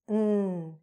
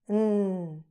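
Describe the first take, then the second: First: The word is reduced to a short n sound. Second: The word is reduced to a short n sound.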